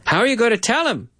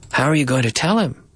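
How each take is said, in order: First: Quicker take, words run together; fast linked speech. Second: Said in the usual way. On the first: Shown as a demonstration. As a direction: speed it up smoothly.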